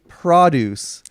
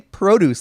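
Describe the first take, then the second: First: The first syllable does not sound like 'pro'. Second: The first syllable sounds like 'pro' in 'pro golfer'. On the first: The speaker calls it wrong. "Why are you guys saying produce?" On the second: The speaker calls it right. "like you know, pro golfer"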